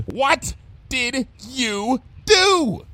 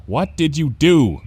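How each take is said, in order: First: Very slow, high-pitched word-by-word demand; exasperated, drawn-out high demand. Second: Louder, slightly slow question; wary, drawn-out question; asking. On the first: Acted. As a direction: drag out each word in alarm. Repeats question, cutting off the explanation. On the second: A narrator's reading. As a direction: ask it straight, with some concern. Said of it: "Bon Bon asked".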